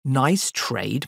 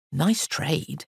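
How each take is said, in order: First: NICE TRADE thrown back with a questioning lift; scoffing echo. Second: Said in the usual way. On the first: Acted. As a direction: echo NICE TRADE in mild scorn, ending upward. Master scornfully echoes the boy.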